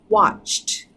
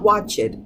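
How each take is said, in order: First: The ending is blended smoothly into the t. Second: The ending is not blended into the t. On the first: The speaker calls it right. "your tongue just flows from the ch to the t" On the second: The speaker calls it wrong. "not watched"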